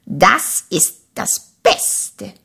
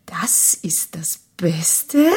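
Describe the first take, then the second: First: Said in the usual way. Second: Slow, whispered question; hushed sceptical echo; doubting whisper. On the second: A narrator's reading. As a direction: breathe the question in disbelief.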